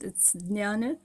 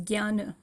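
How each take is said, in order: First: It is said the classical Sanskrit way. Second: It is said the modern Hindi way. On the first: "In Sanskrit" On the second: "Hindi or modern way of pronouncing the same word"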